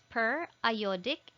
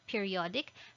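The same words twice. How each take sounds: First: The middle sounds like 'eye', as in iodine. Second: The middle sounds like 'ee', as in period. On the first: The speaker calls it right. "It's periodic ... because this contains iodine" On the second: The speaker calls it wrong. "not periodic"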